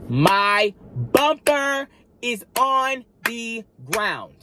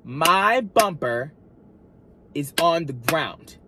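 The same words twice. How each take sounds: First: High, slow, drawn-out announcement; dramatic slow reveal. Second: Slow, deliberate, word by word; dramatic slow repeat. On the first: Telling viewers the shocking news, drawn out and high. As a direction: stretch each word out for effect. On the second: Leading viewers to repeat the line, slow and deliberate. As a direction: lead the viewers through it slowly. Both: Shown as a demonstration. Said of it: "Repeat it, repeat it with me".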